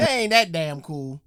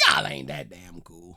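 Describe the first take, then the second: First: A loud, scoffing put-down. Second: Said in the usual way. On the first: Real, not acted. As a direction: call it out loudly, unimpressed. Scoffing reaction to the band names.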